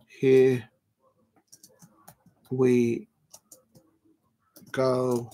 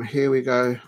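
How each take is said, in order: First: One word at a time, long gaps; word-by-word typing. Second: Said in the usual way. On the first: Real, not acted. Streamer typing the stream title, drawn-out and absent-minded. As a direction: say each word slowly as you type it.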